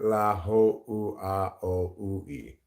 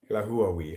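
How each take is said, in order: First: The name is said slowly, each vowel said separately. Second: The name is said quickly, its vowels run together. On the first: "that's the slow way to pronounce it" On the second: "Ruben's is the fast way to pronounce it"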